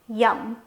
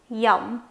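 Both takes have the same delivery.

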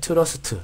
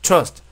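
First: It is drawn out, Korean-style. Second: It is said short, in one breath.

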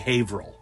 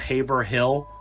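First: Some written sounds are dropped or merged. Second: Every written letter and syllable is sounded out. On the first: This is how locals say it. "this is New England, so we say Haverhill" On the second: This is how the spelling reads. "it's spelled Haverhill"

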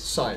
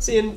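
First: The vowel is long, rhyming with 'fine'. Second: The vowel is short, rhyming with 'fin'. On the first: The speaker calls it right. "it's sine" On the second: The speaker calls it wrong. "this is not sin"

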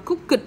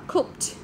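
First: The ending is said as an extra syllable. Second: The ending is said as a short t sound. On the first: The speaker calls it wrong. "Chúng ta không đọc là cooked đâu nha" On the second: The speaker calls it right. "Chúng ta đọc là cooked"

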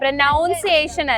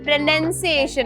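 First: The second syllable sounds like noun. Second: The second syllable sounds like nun. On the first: The speaker calls it wrong. "പ്രൊനൗൺസിയേഷൻ അല്ല" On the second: The speaker calls it right. "പ്രൊനൗൺസിയേഷൻ ആണ്"

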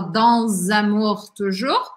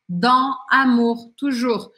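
First: A z sound links dans to amour. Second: Dans ends without a z before amour. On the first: "ela não fala dans amour toujours" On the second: "mas ela fala dans amour toujours"

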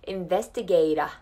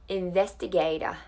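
The two takes are said the same way.

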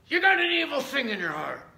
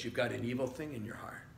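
First: It is said harshly and accusingly. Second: It is said gently and lovingly.

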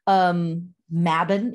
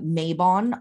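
First: The word is said the original, non-American way. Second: The word is said the common American way. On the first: The speaker calls it right. "Mabon is the correct pronunciation" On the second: The speaker calls it wrong. "it's pronounced here in America, Mabon a lot"

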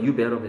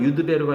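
First: It is said fast with the d sound dropped. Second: It is said carefully with the d sound. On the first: "발음을 빨리 하면" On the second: "유드베로가 아니라"

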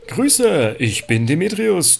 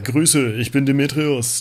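First: It is said in a plain, unstyled voice. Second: It is said in a cool, laid-back voice.

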